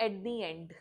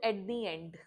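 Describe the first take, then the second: First: 'The' is said with a long 'ee' vowel. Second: The same.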